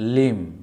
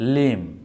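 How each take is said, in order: Both takes have the same delivery.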